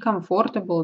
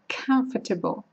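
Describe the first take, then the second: First: The first k sound is soft, without a burst. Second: The first k sound is explosive, with a burst. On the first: The speaker calls it wrong. "не comfortable" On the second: The speaker calls it right. "а comfortable. К нужно делать взрывным"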